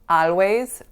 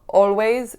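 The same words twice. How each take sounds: First: The first vowel sounds like a. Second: The first vowel sounds like o. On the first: "or a" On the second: "not o"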